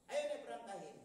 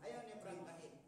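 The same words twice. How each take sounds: First: Ayaw hit louder with a falling tune; stress on ayaw. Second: Said in the usual way. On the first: Shown as a demonstration. Preacher stressing that he refused, ayaw punched louder. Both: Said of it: "repeated louder".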